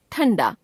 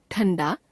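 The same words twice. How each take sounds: First: ठंडा with the pitch falling; corrected form, falling. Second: ठंडा with the pitch rising; ठंडा left hanging on a rise; error example, rising. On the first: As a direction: close off ठंडा with a fall. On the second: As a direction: lift the end of ठंडा. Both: Shown as a demonstration. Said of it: "अनुस्वार और अनुनासिक संबंधी अशुद्धियां".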